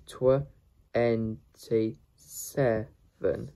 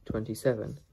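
First: "twenty-seven" very slowly, split into pieces; syllable by syllable. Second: Said in the usual way. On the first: Shown as a demonstration. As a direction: pull "twenty-seven" apart with clear pauses. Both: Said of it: "How to pronounce twenty-seven".

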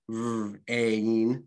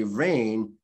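First: "r, a, in" as separate drawn-out sounds; sounded out. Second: Said in the usual way. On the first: Shown as a demonstration. Teacher showing the sounds in rain, "r, a, in" segmented. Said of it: "Those are the sounds that we're representing". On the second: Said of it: "you really do hear more sounds".

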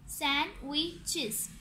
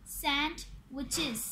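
First: "sandwiches" slowly in three beats; "sandwiches" broken into three separate syllables. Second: "sandwiches" slowly in two chunks; "sandwiches" with one gap after sand; split word. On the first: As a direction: say "sandwiches" as सैन, वि, चेस with pauses. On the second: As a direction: say "sandwiches" as sand, pause, witches. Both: Shown as a demonstration. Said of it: "इसके three syllables हैं".

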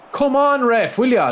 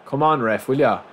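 First: High, loud yell at the referee; losing it with the ref over a missed foul; furious shout. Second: Said in the usual way. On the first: Real, not acted. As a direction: scream the appeal in outrage. Protesting the referee.

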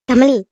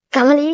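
First: A loud call of Kamali, falling at the end. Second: Kamali with a questioning rise at the end; questioning call. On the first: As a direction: call Kamali from across the room. Mother calls daughter by name. (மகளை உரக்க அழைக்கும் அம்மா, Kamali) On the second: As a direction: ask Kamali, lifting the last syllable. Mother questions daughter by name. (சந்தேகத்துடன் கேள்வியாக உயரும் Kamali) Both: Acted.

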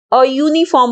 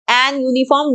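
First: "अ यूनिफॉर्म" with a short schwa "uh", then "yoo-niform" starting on a Y sound; correct a before uniform. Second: "एन यूनिफॉर्म" with a full "an" before "yoo-niform"; wrong an before uniform. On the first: Teacher showing students the correct form, "अ यूनिफॉर्म" said with "uh". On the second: Teacher showing the wrong form students use, "एन यूनिफॉर्म" with "an". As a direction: say "एन यूनिफॉर्म" as the mistake students make, "an" then "yoo". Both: Shown as a demonstration. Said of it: "वो बिल्कुल गलत होता है".

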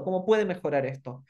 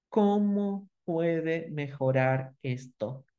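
First: "puede" clearly marked, not "puedo"; stress on puede. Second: Each word laid out very slowly and deliberately; slow demo question. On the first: Teacher correcting the word "puede" for listeners. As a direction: lean on "puede", ending in a clear e. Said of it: "Por las dudas no es puedo". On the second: Teacher demonstrating the question very slowly to the workshop audience. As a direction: spell the question out slowly for the class. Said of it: "acá viene la herramienta de hacer una pregunta". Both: Shown as a demonstration.

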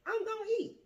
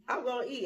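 First: Much higher, punched declaration; high defiant I'm gonna eat; emphatic. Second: Said in the usual way. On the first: Real, not acted. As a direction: fling it up high like a vow. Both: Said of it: "food is involved, I'm gonna eat".

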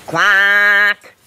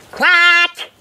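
First: Long, level quack on one note; monotone held quack; faulty duck quack. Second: High, bright-vowelled working quack; one long, high triumphant quack; excited duck quack. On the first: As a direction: explain with a drawn-out duck quack. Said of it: "explained Quentin". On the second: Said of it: "excitedly tried it out". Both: A narrator's reading.

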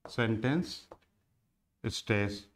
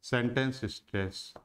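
First: sentence and stress said as separate words with a pause between; spelled out slowly. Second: Said in the usual way. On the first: Shown as a demonstration. Teacher repeating the term for students, sentence then pause then stress. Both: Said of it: "एक तो होता है sentence stress".

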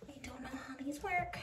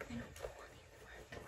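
First: Said in the usual way. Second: Slow, soft whisper to herself. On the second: Real, not acted. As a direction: mutter it under the breath, puzzled. Fumbling with shoe laces.

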